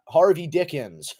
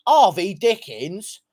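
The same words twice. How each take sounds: First: Said in the usual way. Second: Slow, drawn-out British parody of the name; mock British accent. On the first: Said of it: "Such a British name". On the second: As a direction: say the name like a caricature Brit. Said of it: "Sorry about my British accent".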